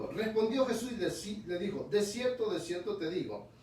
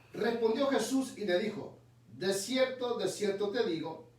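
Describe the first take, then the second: No difference in how they are said.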